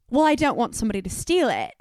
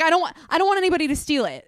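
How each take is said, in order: First: Imitated Australian tourist; Australian accent. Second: Said in the usual way. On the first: Tourist protesting to the store lady, Australian accent. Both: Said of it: "not gonna continue to do the accent".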